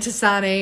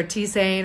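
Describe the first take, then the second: First: "tisane" said as tee-ZAH-nay; alternative pronunciation. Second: "tisane" said as tee-ZANE; alternative pronunciation. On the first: Herbalist trying out the word for viewers, "tisane" as tee-ZAH-nay. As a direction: say "tisane" in three syllables, ending in -ay. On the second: Herbalist unsure of the word, offering "tisane" as tee-ZANE. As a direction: say "tisane" in two syllables, rhyming with cane. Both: Shown as a demonstration. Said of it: "or however it's pronounced".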